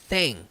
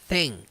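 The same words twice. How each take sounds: No difference in how they are said.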